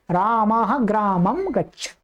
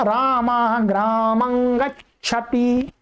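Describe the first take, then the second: First: ग्रामं as graamam with lips closed on m; colloquial m pronunciation. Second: Slow, ग्रामं ending in a nasal ng; correct nasal anusvara. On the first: Teacher showing what students will also hear, anusvara as m. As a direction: end ग्रामं on a clear m, at everyday pace. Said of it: "परंतु आपको ऐसा भी सुनने में मिलेगा". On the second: Teacher showing students the correct form, nasal anusvara. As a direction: sound ग्रामं as graamang, through the nose. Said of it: "ये सही है". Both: Shown as a demonstration.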